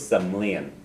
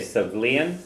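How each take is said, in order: First: It is said in another dialect's form. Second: It is said in a standard dialect form. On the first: "The other way you can say is" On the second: "that's one of the standards"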